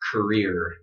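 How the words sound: It ends with a strong R sound. "in my accent, it would sound like this"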